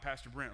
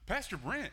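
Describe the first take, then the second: First: The voice is slow, dull and dopey. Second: The voice is bright, energetic and lively. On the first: The speaker calls it wrong. "that's my voice for a teenager. It's just like, duh, blah, blah" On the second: The speaker calls it right. "I'm going to do a better voice this time. ... They're so full of life"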